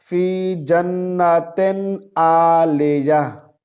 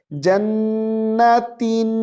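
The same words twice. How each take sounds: First: जन्नतिन with a majhul e, as "jannaten"; wrong pronunciation. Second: जन्नतिन with a clear short i, sung as "jannatin"; correct pronunciation. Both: Shown as a demonstration. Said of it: "जन्नतिन नहीं है".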